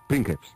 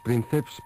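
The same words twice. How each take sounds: First: It is pronounced with classical Latin sounds. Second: It is pronounced with everyday Spanish sounds. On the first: The speaker calls it right. "pronunciándose bien sería princeps" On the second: The speaker calls it wrong. "El otro día decíamos princeps"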